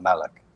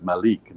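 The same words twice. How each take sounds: First: "Malik" as MAL-ik, short second vowel; "Malik" with a quick, unstressed ending; anglicised pronunciation. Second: "Malik" as ma-LEEK, long second vowel; Arabic-style "Malik" with a long ee; proper pronunciation. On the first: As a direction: stress the first syllable of "Malik". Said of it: "not Malik". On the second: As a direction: stress and lengthen the end of "Malik". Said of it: "the proper way to pronounce my name". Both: Retold or imitated.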